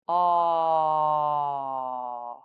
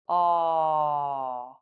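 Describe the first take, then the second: First: The vowel is held for about three seconds. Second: The vowel is held for about one second. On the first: "hold the aw sound for three seconds" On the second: "then one second"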